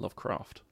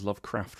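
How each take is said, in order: First: The vowel is said long. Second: The vowel is said short.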